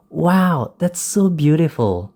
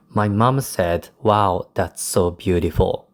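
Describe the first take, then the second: First: Delighted quote, lifting higher on the exclamation; happy excitement. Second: Said in the usual way. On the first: Shown as a demonstration. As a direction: demonstrate happy amazement with a raised pitch. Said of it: "illustrates a feeling of happiness or excitement". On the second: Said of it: "You wouldn't read".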